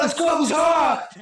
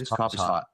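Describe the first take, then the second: First: It is said in an irritated, annoyed tone. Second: It is said in a plain, matter-of-fact tone. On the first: The speaker seems upset about it. "are you mad at me?" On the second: It is simply a statement of fact. "that's just a fact"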